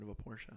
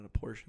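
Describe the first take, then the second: First: "Porsche" with the final e sounded as "uh"; Porsche in two syllables, "POR-shuh". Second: "Porsche" cut to one syllable, like "porsh"; Porsche with a silent final e. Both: Shown as a demonstration. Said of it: "Calling it a Porsche instead of a Porsche".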